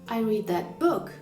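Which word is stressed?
book. The stress falls on the word book. It was the book, not something about it. "I didn't opt for the podcast about it"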